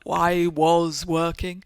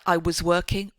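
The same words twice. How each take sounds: First: 'Was' is said in its full strong form. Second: 'Was' is reduced to a short weak form. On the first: The speaker calls it wrong. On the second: The speaker calls it right. "the weak forms like"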